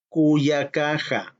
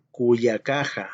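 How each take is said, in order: First: Cuyacaja drawn out slowly, ku-ya-ka-ja; teacher spelling out cuyacaja slowly; slow model pronunciation. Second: Cuyacaja said again at normal pace, falling; plain repeat. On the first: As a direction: sound out cuyacaja for the class. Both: Shown as a demonstration. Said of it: "mi hermana sería".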